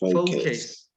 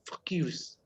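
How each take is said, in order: First: The first syllable is long, like 'faux'. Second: The first syllable is short, like 'fuck'. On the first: The speaker calls it right. "you need to extend your pronunciation, like faux" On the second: The speaker calls it wrong. "that sounds like a cursing word"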